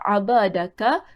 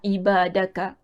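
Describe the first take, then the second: First: The word begins with an 'a' vowel. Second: The word begins with an 'i' vowel. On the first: The speaker calls it wrong. "Dalam kitab letak abadaka" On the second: The speaker calls it right. "bacaan yang tepat ialah ibadaka"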